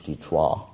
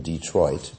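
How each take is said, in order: First: Detroit said the French way, as "day-trwah"; French pronunciation. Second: Said in the usual way. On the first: Shown as a demonstration. Speaker giving the city's original French name, Detroit pronounced "day-trwah". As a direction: say Detroit with a silent final t, French style. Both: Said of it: "as they say in French".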